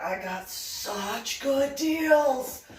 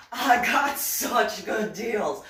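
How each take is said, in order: First: Higher, very slow, each word drawn out; gloating. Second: Louder, slow, stress on got; louder gloat. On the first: Bragging to viewers about her deals, slow gloating drawl. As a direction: savour every word of the bargain. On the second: Repeating her brag to viewers, louder and slow. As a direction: punch it home triumphantly. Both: Acted.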